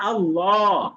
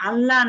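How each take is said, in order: First: The word is said with rounded lips. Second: The word is said with flat, unrounded lips. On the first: The speaker calls it right. "মুখটা গোল করতে হবে" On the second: The speaker calls it wrong. "আল্লাহ না"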